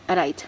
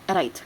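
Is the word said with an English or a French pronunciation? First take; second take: French; French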